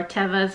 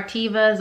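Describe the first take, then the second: First: "Tevas" said as TEH-vuhz; short-E pronunciation. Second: "Tevas" said as TEE-vuhz; long-E pronunciation. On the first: Reseller offers viewers the other way to say the brand, "Tevas" as TEH-vuhz. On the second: Reseller offers viewers one way to say the sandal brand, "Tevas" as TEE-vuhz. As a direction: say "Tevas" with a long ee in the first syllable. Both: Shown as a demonstration. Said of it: "however you choose to pronounce them".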